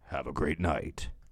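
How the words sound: It is said in a dramatic movie voice.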